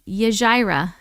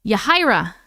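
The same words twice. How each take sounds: First: Yajira with a hard J as in jar; first try at the name. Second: Yahira with an H sound, ya-HI-ra; Yahira, the J said as a breathy H; corrected name. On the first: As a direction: Yajira with a J sound, then corrected. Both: Shown as a demonstration.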